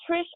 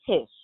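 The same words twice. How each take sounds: First: "Trish" with a clear r after the T. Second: "Tish" with no r after the T; Tish without R. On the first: Checking a caller's name, "Trish" with an R. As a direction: sound the R in "Trish". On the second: Checking a caller's name, "Tish" without an R. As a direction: drop the R, saying "Tish". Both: Shown as a demonstration. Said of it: "Trish with an R".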